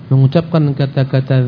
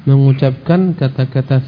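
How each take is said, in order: No difference in how they are said.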